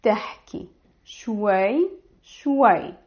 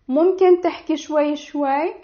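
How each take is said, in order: First: Slow model. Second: Fast natural repeat. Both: Shown as a demonstration. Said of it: "you will say".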